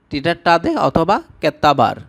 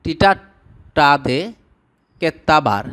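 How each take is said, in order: First: Said in the usual way. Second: টিটাটাদে drawn out very slowly, syllable by syllable; slow syllable demo. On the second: Shown as a demonstration. Teacher slowly modelling a Tamil word for viewers. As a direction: spell out টিটাটাদে slowly so learners catch each beat. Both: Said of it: "গালি দেওয়া".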